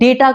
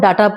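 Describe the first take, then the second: First: The first vowel is an ay sound. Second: The first vowel is an ah sound. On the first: The speaker calls it right. "English में वो डेटा है" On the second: The speaker calls it wrong. "डाटा बोलते हैं"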